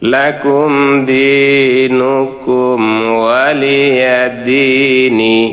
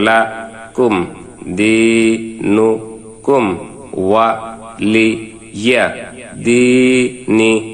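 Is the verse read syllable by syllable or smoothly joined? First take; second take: smoothly joined; syllable by syllable. First: The syllables are joined smoothly into whole words. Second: Each syllable is said separately with breaks between. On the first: "এবার আমরা মিলিয়ে পড়ব।" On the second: "আবার ভাঙ্গা ভাঙ্গা উচ্চারণ।"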